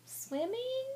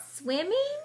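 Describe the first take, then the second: First: Swimming? high with big rise; question tune. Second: High, rising hopeful squeak. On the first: Shown as a demonstration. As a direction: lift Swimming? steeply as a question. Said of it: "you heard how my voice changed". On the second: Acted. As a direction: squeak it with hope. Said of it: "she squeaked hopefully".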